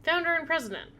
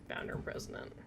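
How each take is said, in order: First: Repeated in disbelief, higher; incredulous. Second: Soft, breathy read-through; whispered read. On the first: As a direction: say it back in disbelief. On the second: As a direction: whisper the title to yourself. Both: Real, not acted.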